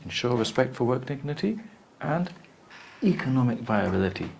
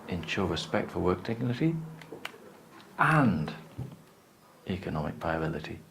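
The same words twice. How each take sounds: First: Economic viability gets stronger stress than work dignity. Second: Both phrases get equal, separate stress. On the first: Making money matters most. "would be the second one bigger" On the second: Both goals matter equally. "two separated"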